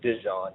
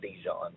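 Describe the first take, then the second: First: It does not sound like the mustard name. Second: It sounds like the mustard name Dijon. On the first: The speaker calls it right. "It is pronounced Dejon" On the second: The speaker calls it wrong. "not Dijon"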